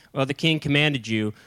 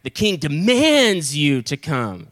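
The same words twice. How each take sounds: First: Casual, understated relaying of an order; less serious command. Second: Slow, overblown stern command; more serious demand. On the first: First captains relaying the king's order, unforceful. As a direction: pass the order on without any weight. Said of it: "those first guys were like". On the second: Next captain trying to outdo the first, exaggeratedly stern. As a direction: hammer and stretch DEMANDS, mock-imperious. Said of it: "we gotta be more serious". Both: Acted.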